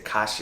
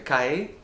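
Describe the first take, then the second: First: The middle consonant is a 'sh' sound. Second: The middle consonant is a 'y' sound. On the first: "this sh- sh- sh kind of sound" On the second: "instead of like a calle for like a street"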